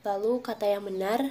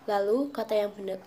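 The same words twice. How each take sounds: Both takes have the same delivery.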